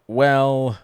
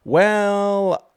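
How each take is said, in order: First: Said in the usual way. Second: "Well" sung out much higher and louder; drawn-out showman "Well". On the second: Pretend. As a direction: stretch "Well" up high like a host. Showy drawn-out segment opener.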